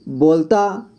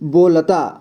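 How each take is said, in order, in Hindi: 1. बीच की l ध्वनि छोटी करके बोली गई है। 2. बीच की l ध्वनि पूरी तरह से बोली गई है। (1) "ल को ऐसा लगा कि यहाँ पे आधा पढ़ा जा रहा है" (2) "बो के बाद ल का साउंड आ रहा है पूरी तरह से"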